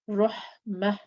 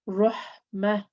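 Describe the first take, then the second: Both takes have the same delivery.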